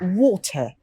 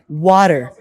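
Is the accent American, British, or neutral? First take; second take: British; American. First: It has a hard t and no r. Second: The t sounds like a d. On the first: "let me pronounce the British one" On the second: "they would pronounce it like water"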